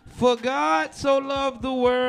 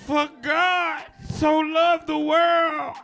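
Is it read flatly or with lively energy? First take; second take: flatly; lively energy. First: It is read flatly, without energy. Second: It is read with lively, preacher-like energy.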